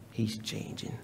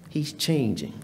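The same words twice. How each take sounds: First: He's changing whispered, much softer; hushed whispered repeat of He's changing; whispered echo. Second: Said in the usual way. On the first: Acted. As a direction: drop it to a whisper the second time. Repeated for emphasis.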